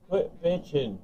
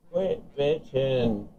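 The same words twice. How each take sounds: First: Said in the usual way. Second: Slow, stretched repeat of Quit bitching; drawn-out taunt. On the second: Real, not acted. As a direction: drag out Quit bitching slowly to mock him.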